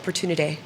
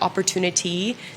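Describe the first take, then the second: First: The word ending is clipped and dropped. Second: The word ending is fully pronounced. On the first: "the endings of words, just sort of dropping them" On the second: "So instead of like"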